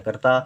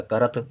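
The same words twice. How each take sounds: First: "करता" with a clear aa at the end; long final aa. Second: "करत" ending on t, no final aa; short ending. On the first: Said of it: "हमको लिखना है करता". ("करता" के अंत में लंबा आ) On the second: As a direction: stop "करत" at the त. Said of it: "बड़े आ की मात्रा ना लिखी जाए". ("करत", अंत के आ के बिना) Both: Shown as a demonstration.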